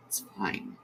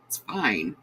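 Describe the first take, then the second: First: "fine" breathed out as a soft whisper; choked-up whisper to steady herself. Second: Said in the usual way. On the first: Real, not acted. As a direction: whisper "It's fine" to yourself, no voice.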